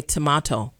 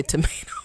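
First: "tomato" said the British way, tuh-MAH-toe. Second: "tomato" said the American way, tuh-MAY-toe. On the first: Host mocks her mother's correction, British "tomato". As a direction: say "tomato" in a light British twang, ah in the middle. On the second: Host shows her usual "tomato", American ay. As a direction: say "tomato" with an ay in the middle. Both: Shown as a demonstration. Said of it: "go back to my British twang".

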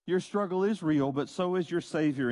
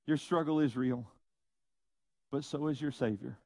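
First: "is" stressed in "struggle is real". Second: Said in the usual way. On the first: Real, not acted. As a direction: lean firmly on the word IS, then carry on. Repeats line with emphasis on is.

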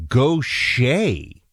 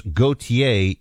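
First: Gaucher said slowly as "go-SHAY"; local pronunciation. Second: Gautier said "go-tee-ay", in three syllables; name as spelled. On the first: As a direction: draw out Gaucher in two syllables, "go-shay". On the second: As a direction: say Gautier French-style as "go-tee-ay". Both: Shown as a demonstration. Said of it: "How to pronounce".

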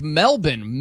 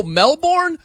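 First: Melbourne said as MEL-bun, lower; puzzled Aussie pronunciation. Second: Melbourne said as mel-BORN, high; American pronunciation. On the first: Host puzzling over telecast's word, MEL-bun pronunciation. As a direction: say Melbourne with a reduced "bun" ending. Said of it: "I'm like". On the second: Host working out the word, spelled-out mel-BORN. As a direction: sound out the full BORN in Melbourne, pitched up. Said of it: "Mel-, oh". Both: Retold or imitated.

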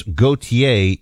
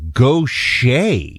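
First: "Gautier" said as spelled, go-tee-ay. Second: "Gaucher" as go-SHAY, slowly drawn out; corrected pronunciation. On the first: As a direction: sound out every syllable of "Gautier". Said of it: "got a couple of pronunciation things". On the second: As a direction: stretch out "Gaucher" in two syllables, go-shay. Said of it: "How to pronounce Gautier? It's Gaucher". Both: Shown as a demonstration.

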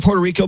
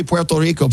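First: Said in the usual way. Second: "Puerto Rico" said the Spanish way; Spanish pronunciation. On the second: Shown as a demonstration. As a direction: pronounce "Puerto Rico" as a Spanish speaker would. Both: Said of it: "Why are you saying it like that?".

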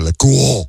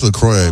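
First: "La Croix" as an exaggerated "le kwoh"; mock French La Croix. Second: Put-on "LaCroix" rhyming with "boy"; LaCroix as "la-KROY". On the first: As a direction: ham up La Croix, drawn-out French ending. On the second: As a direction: say LaCroix with an OY ending. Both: Shown as a demonstration. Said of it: "I don't know about La Croix".

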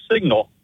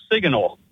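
First: Said in the usual way. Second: "signal" with an extra syllable, sig-uh-nal; mispronounced SIGNAL. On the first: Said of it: "instead of". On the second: Retold or imitated. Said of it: "you said it was a great signal instead of".

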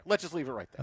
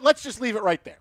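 First: Softer, lower, muttered aside; quiet repeat. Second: Said in the usual way. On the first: Real, not acted. Host repeating himself under his breath to end the story, quieter. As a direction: drop it to a low mumble to yourself.

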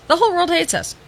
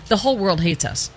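First: Much higher, sarcastic singsong on "whole"; mocking repeat. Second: Said in the usual way. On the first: Shown as a demonstration. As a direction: echo it back in a mocking high voice.

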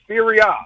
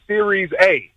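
First: "Serie A" with the A said "ah"; Italian pronunciation. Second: "Series A" with an English "series" and letter A as "ay"; mispronunciation. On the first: Shown as a demonstration. Caller teaching the host the league's name, Italian pronunciation. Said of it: "We pronounce it Serie A". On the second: Retold or imitated. Caller quoting the host's mistake, English mispronunciation. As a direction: say "Series A" as plain English words, A as "ay". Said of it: "You said Series A".

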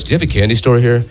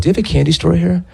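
First: Said in the usual way. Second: Put-on high child's voice; like a six-year-old. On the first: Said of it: "say my regular voice". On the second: Shown as a demonstration. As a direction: put on a little kid's higher voice. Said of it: "said it like a six-year-old".

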